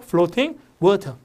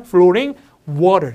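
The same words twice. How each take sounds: First: Floating and water with crisp Ts; British floating, water. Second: Floating and water with tapped Ts; American floating, water. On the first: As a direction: say "flo-ting, waw-tuh". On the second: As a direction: say "flo-ring, waw-rer". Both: Shown as a demonstration. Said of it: "미국식 하면".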